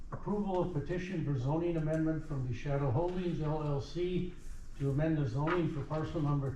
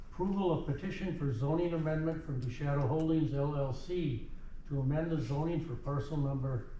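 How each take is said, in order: No difference in how they are said.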